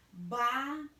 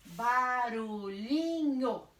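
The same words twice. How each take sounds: First: "Barulhinho" in syllables with very long pauses. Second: "Barulhinho" slow, every syllable drawn out and joined; stretched syllables. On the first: Teacher dictates as she writes, "Barulhinho" syllable by syllable. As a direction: dictate "Barulhinho" one syllable, then wait. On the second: Teacher reads back the divided word, "Barulhinho" in stretched syllables. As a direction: stretch "Barulhinho" through without pauses. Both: Shown as a demonstration. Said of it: "eu vou separar".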